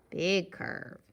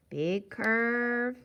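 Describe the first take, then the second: First: "big curve" falling away on "curve"; falling tune. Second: "big curve" with "curve" held up and long; rising tune. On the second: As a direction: lift and stretch "curve", unfinished. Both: Shown as a demonstration. Chanting along with drawn letter strokes.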